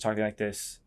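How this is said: The pitch stays level at the end. The speaker sounds neither seeking nor commanding. "neutral is just talking like this"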